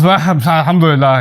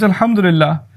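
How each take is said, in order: First: It is said in a reluctant, grudging tone. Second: It is said in a sincere, grateful tone. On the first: The speaker is complaining rather than praising God. The speaker calls it wrong. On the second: The speaker truly praises God. The speaker calls it right.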